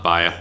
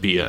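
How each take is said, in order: First: The first vowel sounds like 'eye'. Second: The first vowel sounds like 'ee'. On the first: "and not Baya" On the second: "I hope it's pronounced Bia"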